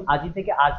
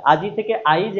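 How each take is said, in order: First: "আজ" said aaj, with no I at all; vowel dropped. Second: "আইজ" said aa-ij, the I moved ahead of J; I before J. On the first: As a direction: leave the I out of "আজ". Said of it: "এটা স্বরালোপের উদাহরণ". ("আজ"-এ ই লোপ করে) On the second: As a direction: sound the I inside "আইজ". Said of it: "এটা অপিনিহিতের উদাহরণ". ("আইজ"-এ জ-এর আগে ই বলে) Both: Shown as a demonstration.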